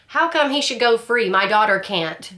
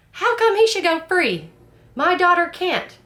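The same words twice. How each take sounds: First: Louder, higher mock courtroom yell; half-acted outburst from the gallery; retold yell. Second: Much higher, louder mock yell; retold yell. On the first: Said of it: "she yells that out". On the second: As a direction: ham up the mother's outburst in court. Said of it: "she's like".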